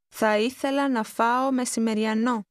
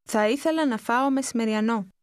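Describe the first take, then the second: First: It is said slowly and carefully. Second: It is said fast, at conversational speed.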